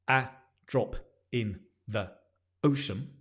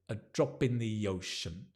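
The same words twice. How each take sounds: First: Each word is said separately, not linked. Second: The words run together as one sound. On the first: The speaker calls it wrong. "instead of saying" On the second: The speaker calls it right. "If you can say it as one sound, it's even better"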